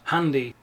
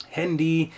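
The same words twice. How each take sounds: First: "handy" pronounced the German way, open first vowel; German accent. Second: "handy" pronounced the English way; English accent. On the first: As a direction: say "handy" as a German would inside German. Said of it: "But if you don't, if you don't, wouldn't say". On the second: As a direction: say "handy" as an English speaker would. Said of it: "they pronounce them with an English accent". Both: Shown as a demonstration.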